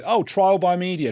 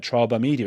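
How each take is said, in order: First: High, mocking sing-song on the slogan. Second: Said in the usual way. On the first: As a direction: parrot the slogan with a sneer. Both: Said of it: "a slogan like".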